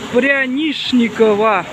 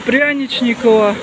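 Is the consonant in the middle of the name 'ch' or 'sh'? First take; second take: sh; ch. First: The middle consonant is said as 'sh'. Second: The middle consonant is said as 'ch'. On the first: The speaker calls it right. "по старомосковскому говорят не Че, а Ше" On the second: The speaker calls it wrong. "не Че"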